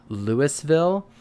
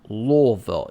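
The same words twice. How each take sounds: First: The word is said plainly, not from the throat. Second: The word is said from the back of the throat. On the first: The speaker calls it wrong. "It's not" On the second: The speaker calls it right. "It has to like come from the back of your throat"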